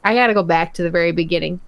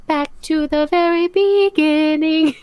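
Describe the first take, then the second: First: Said in the usual way. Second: Slow, higher, put-on movie-trailer voice; mock-epic repeat of the line; dramatic announcement. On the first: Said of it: "I have to go back". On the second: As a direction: stretch it out like a grand narrator.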